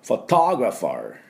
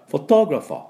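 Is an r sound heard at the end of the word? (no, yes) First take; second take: yes; no. First: American accent, ending with an r sound. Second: British accent, with no r sound at the end. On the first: "アメリカ人だったら…最後にR を持ってくる" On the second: "イギリスの音ではR が入ってません"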